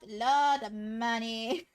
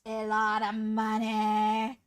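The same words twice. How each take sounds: First: "lot" drawn out slowly and leaned on, tune rising; slow, stretched "lot" with a rising end; stress on lot. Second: "lot" stretched slowly and pushed harder, rising at the end; heavier stress on lot. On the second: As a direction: lean hard on "lot" and draw it out. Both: Shown as a demonstration. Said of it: "I love, like, it, stressing that".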